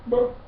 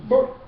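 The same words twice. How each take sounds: Both takes have the same delivery.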